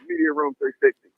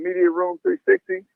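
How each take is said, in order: First: The phrase is said at a quick pace. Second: The phrase is said at a slower pace.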